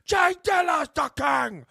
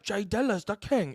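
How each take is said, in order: First: It is yelled in a gruff, rough voice. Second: It is said in a plain, calm voice.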